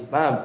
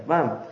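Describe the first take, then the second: No difference in how they are said.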